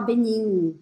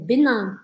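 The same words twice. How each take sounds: First: The vowel is said with a closed mouth. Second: The vowel is said with an open mouth. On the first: The speaker calls it wrong. "não é para falar Benin" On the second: The speaker calls it right. "lembra de deixar sua boca aberta"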